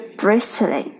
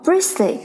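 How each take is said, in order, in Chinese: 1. 这个 t 音要发音。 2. 这个 t 音不发音。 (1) "而不是bristly" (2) "这个t 呢是不发音的，读作bristly"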